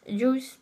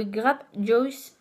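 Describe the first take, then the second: First: "Juice" redone with a French "j", like "joss", rising; self-correction. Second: "Juice" said like "djoss", stretched slowly; first try at the English. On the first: Fixing the brand name for viewers, "Juice" said as a French "joss". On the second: Reading a lipstick name to viewers, "Juice" comes out as "djoss". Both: Real, not acted. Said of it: "Excusez-moi pour mon anglais".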